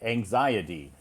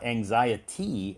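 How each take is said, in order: First: The last syllable has a soft D sound. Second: The last syllable has a clear T sound. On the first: The speaker calls it right. "It's it sounds like a D" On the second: The speaker calls it wrong. "So it's not anxiety"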